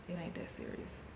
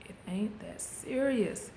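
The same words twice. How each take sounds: First: A soft unvoiced whisper; whispered title. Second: Slow, drawn-out words. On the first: Shown as a demonstration. Naming the title of her video, whispered. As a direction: breathe the words like a secret title. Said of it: "the title of this video". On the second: Retold or imitated. Calming herself before the gym, slow and drawn out. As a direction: stretch each word out slowly. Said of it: "And be like".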